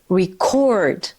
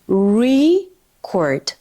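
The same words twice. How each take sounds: First: The stress is on the second syllable. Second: The stress is on the first syllable. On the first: It is a verb. "And the verb is record" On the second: It is a noun. "So here is the noun"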